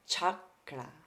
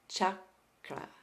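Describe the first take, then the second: First: The word begins with a ch sound. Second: The same.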